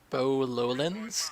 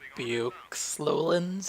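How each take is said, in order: First: The first word is one syllable, like 'bo'. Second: The first word is two syllables, like 'be-ox'. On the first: The speaker calls it right. "this is on the map Bow Lowlands" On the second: The speaker calls it wrong. "not Beox Lowlands"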